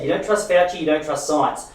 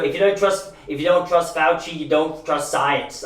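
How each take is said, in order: First: Said in the usual way. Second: Put-on slow, with a slight tang of an Austrian-American accent; Schwarzenegger accent. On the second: Quoting Fauci on trusting science, a slight, slow Austrian-American accent. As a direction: drag the quote out with a hint of an Austrian-American accent. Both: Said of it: "I know that sounded like Schwarzenegger".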